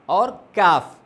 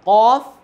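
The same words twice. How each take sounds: First: काफ with an ordinary k from the mouth; front mouth kaf. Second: काफ with the k from the back of the throat, loud; deep throat qaf. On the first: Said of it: "और ये काफ मुंह से निकलता है". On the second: Teacher showing students the throat letter काफ, said from deep back. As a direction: say काफ as Arabic qaf, from just before the throat. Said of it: "ये काफ और काफ में फ़र्क है". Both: Shown as a demonstration.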